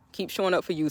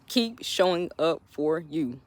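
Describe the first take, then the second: First: Soft repeat. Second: Slow soft repeat. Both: Shown as a demonstration.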